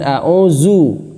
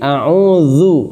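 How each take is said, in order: First: The last syllable uses a plain z sound. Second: The last syllable uses a soft 'dh' sound. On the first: The speaker calls it wrong. "Bukan a'uzu" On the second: The speaker calls it right. "tapi a'udzu, zu ya. Dzal dibaca yang benar"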